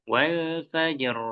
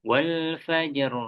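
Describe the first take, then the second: Both takes have the same delivery.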